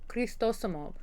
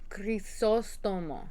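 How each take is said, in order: First: The t comes right after the first syllable. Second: The t comes near the end of the name. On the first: The speaker calls it wrong. "not Cristosomo" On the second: The speaker calls it right. "I was putting the T in the wrong spot"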